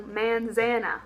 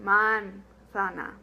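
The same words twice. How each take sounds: First: Manzana in a mock East Texas drawl, man-ZAN-uh; deliberately bad East Texas accent. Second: Manzana slow and careful, every A as ah; slow correct Spanish manzana; correct Spanish pronunciation. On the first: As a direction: mangle manzana like an East Texan. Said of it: "a really bad East Texas pronunciation of this word". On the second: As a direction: stretch out manzana, crisp and open. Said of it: "really emphasize the correct pronunciation". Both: Shown as a demonstration.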